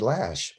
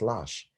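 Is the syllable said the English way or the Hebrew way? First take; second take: English; Hebrew. First: It is said with an English pronunciation. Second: It is said with a Hebrew pronunciation. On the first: The speaker calls it wrong. "in English for us, it'd be lash" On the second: The speaker calls it right. "but it's not lash, it's lash"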